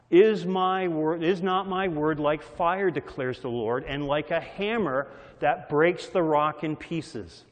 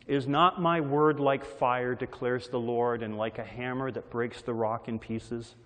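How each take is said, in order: First: Preaching the verse with force; emphatic scripture reading. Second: Measured, reverent recitation; scripture reading. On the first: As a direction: proclaim it like thunder. Scripture recited again, louder. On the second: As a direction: read the verse with weight. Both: Acted.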